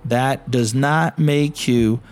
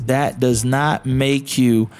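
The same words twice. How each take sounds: The two takes are said the same way.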